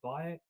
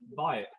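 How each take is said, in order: First: It is said in a warm, loving way. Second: It is said in a plain, blunt way.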